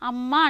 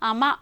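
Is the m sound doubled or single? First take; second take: doubled; single. First: The m sound is held long and doubled. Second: The m sound is short and single. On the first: The speaker calls it right. "అమ్మ అంటాం కదా" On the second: The speaker calls it wrong. "అక్కడ ఏమనుంది?"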